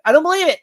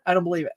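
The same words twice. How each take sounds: First: Higher and louder, hitting don't; emphatic disbelief. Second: Said in the usual way. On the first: Real, not acted. Telling viewers he doubts Superman is in it, insistent. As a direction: punch the word don't with real conviction. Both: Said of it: "I do not believe".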